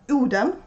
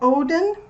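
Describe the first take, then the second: First: The name is said with Swedish pronunciation. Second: The name is said with English pronunciation.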